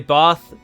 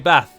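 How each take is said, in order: First: It is said in a more southern English accent. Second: It is said in a northern English accent. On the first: "I say Bath" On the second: "people to the north of me would say Bath"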